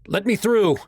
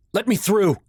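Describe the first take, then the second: First: Loud, high urgent shout. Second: Loud, high angry snap; snapping. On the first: Son shouting at the fireman to reach his mom. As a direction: shout it at the man blocking you. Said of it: "I shouted at the fireman". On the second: Son forcing past onlookers at the fire, snapping angrily. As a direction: push through the crowd with a sharp bark. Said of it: "I snapped". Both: A narrator's reading.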